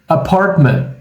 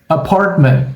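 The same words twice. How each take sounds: No difference in how they are said.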